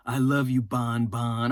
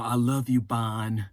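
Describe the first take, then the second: First: Low mock-lovesick Frank cooing Bon Bon. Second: Low, soft lovesick murmur; low mock-tender Frank to Bonnie. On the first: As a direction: coo the pet name, lovesick. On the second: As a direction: murmur it like a smitten man. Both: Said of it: "Fine Ass Frank has to go up to her".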